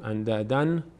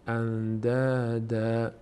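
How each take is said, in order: First: The word ends in an n sound. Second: The word ends in a long a vowel. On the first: "اندادن نمیگیم" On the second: "اگر اینجا وقف کنیم میشه اندادا"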